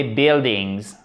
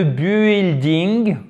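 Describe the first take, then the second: First: 'buildings' said 'bil-dings', no u sound; silent U. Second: 'building' with the U sounded, 'bu-il-ding'; wrongly pronounced U. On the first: Teacher giving learners the correct English, 'buildings' with silent U. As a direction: drop the U in 'buildings', just a short i. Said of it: "on ne prononce pas le U". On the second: Teacher mocking a learner's error, 'building' with the U pronounced. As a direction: say 'building' with a French u before the i. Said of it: "on ne prononce pas le U. Donc, il n'y a pas de building". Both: Shown as a demonstration.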